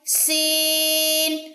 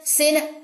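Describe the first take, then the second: First: The vowel is held long before the final n. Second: The vowel is clipped short before the final n. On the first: The speaker calls it right. "इन तीनों की आपको साउंड आनी चाहिए सीन में" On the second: The speaker calls it wrong. "अक्सर लोग इसको ऐसे पढ़ते हैं"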